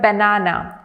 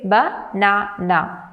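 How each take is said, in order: First: Said in the usual way. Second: "banana" slowly broken into three separate syllables. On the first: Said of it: "when you say the word banana, we say". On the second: Shown as a demonstration. Teacher showing learners three syllables, "banana" split slowly. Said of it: "There are three syllables".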